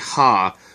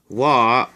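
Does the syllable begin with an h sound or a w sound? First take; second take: h sound; w sound. First: The syllable begins with an h sound. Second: The syllable begins with a w sound. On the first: It is the basic reading of the character. "this is actually ha" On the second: It is used as the topic particle. "it's pronounced wa when it goes after the topic of a sentence"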